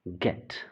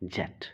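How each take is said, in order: First: The word begins with a hard G sound. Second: The word begins with a J sound. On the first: The speaker calls it right. "गेट इसे पढ़ते हैं।" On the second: The speaker calls it wrong. "ज़रूरी नहीं कि इसका sound जेट होना चाहिए"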